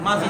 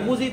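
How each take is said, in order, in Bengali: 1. প্রথম স্বরধ্বনিটি 'a' ধ্বনির। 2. প্রথম স্বরধ্বনিটি 'u' ধ্বনির। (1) "মাজিদ বলবেন" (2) "মুজিদ না"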